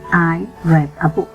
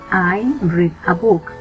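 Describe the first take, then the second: First: The verb has a short vowel, like 'red'. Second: The verb has a long vowel, like 'reed'. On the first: The reading happened in the past. "In past, I'm going to say" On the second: The reading happens now or habitually. "So I say in present"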